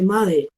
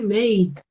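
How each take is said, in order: First: The word has two syllables, ending in a vowel. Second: The word has one syllable, final e silent. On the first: The speaker calls it wrong. "eso no se dice made" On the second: The speaker calls it right. "se dice made, Esta de acá no va a sonar"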